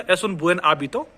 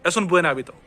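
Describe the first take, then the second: First: Slow, separated "Es un buen hábito"; each word apart, buen then hábito; slow speech. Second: Quick, linked "Es un buen hábito"; faster speech. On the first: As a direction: say it slowly, word by word. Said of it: "अगर मैं धीरे-धीरे बोलूंगा". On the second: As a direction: slide buen straight into hábito. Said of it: "लेकिन fast कैसे बोलूंगा". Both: Shown as a demonstration.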